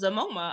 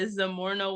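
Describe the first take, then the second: First: The middle has a single m sound. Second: The middle has an r followed by n. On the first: The speaker calls it wrong. "the lettering is really weird in between that R and the N" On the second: The speaker calls it right. "I really thought that Zamorna was Zamoma"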